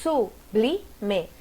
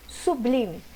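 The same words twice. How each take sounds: First: Sublime broken into su-bli-me with pauses; syllable by syllable. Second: Said in the usual way. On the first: Shown as a demonstration. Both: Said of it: "como separa".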